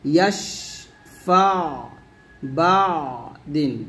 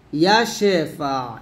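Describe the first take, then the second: First: ইয়াশফা and বাদিন said slowly, pressing on the ain sound; correct way. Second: ইয়াশেফা with a vowel slipped in, no pressed ain; wrong way. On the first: A teacher following the mistake with the correct reading. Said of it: "এরকম". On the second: A teacher showing a common mistake. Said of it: "এরকম কিন্তু না". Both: Shown as a demonstration.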